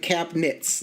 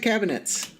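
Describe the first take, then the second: First: The word is said with a syllable dropped. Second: The word is said with three full syllables. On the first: This is how Midwesterners say it. "like we just like skip a whole syllable there" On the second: This is how television hosts say it. "they always pronounce it cabinets"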